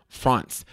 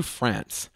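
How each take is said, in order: First: "France" said the French way, with a broad ah; French pronunciation. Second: Said in the usual way. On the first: Shown as a demonstration. Traveler recalling his trip, "France" in French pronunciation. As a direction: say "France" as the French do, rounder vowel.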